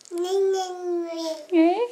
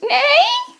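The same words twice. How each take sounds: First: Soft crying neigh; whimpering neigh. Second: Shrill whinny, horse imitation; high loud neigh. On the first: Pretend. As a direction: neigh with a little whine. Mother imitates horse again.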